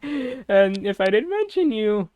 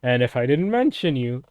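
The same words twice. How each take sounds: First: Higher, slower, put-on voice; mock dramatic voice. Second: Said in the usual way. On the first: Shown as a demonstration. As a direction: stretch it out in a silly put-on voice.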